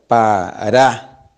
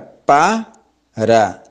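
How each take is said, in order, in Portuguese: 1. A tônica está na segunda sílaba. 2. A tônica está na primeira sílaba. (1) "acentuação, ou seja, tônica, na segunda sílaba" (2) "Na primeira que nós falamos era pá, ra"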